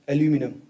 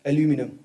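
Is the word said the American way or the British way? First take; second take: American; American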